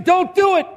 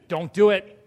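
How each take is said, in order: First: It is said in a begging, pleading tone. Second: It is said in a firm, stern dad voice.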